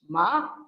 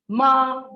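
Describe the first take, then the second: First: The pitch rises upward. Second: The pitch stays high and level. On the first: It means mad. "Ma with a rising pitch" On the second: It means dog. "ma is high level pitch"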